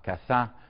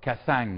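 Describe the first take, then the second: First: It is spoken with a standard French accent. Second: It is spoken with a Southern French accent. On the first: "the great uh, human rights advocate uh, René uh, Cassin" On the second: "or Cassang instead of"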